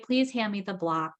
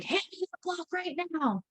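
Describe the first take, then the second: First: Said in the usual way. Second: Put-on sharp, high, pushy order to a child; a stern mom barking an order; harsh demanding command. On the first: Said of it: "So neutral tone of voice". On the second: Shown as a demonstration. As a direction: snap the order at the child like an impatient parent. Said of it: "instead of like".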